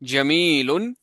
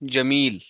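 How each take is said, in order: First: The word ends with the -un ending. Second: The word stops without the -un ending.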